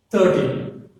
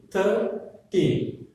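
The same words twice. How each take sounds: First: Put-on "thirteen" as one word, weight on "teen"; stress on "teen". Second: Put-on "Thirteen" broken slowly into "Thir" and "teen"; split into syllables. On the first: Teacher gives the first example, "thirteen" whole with stress on "teen". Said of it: "The stress on the T". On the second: Teacher shows two syllables, "Thirteen" split as "Thir, teen". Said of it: "two syllables are there". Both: Shown as a demonstration.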